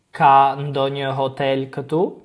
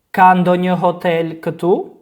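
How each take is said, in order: First: "Ka ndonjë hotel këtu?" ending on a gentle rise; question intonation. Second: "Ka ndonjë hotel këtu?" lifted into a question; rising question tune. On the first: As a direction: ask "Ka ndonjë hotel këtu?" with a lift at the end. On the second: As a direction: rise through "Ka ndonjë hotel këtu?" to ask. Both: Shown as a demonstration. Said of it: "raise your intonation when speaking".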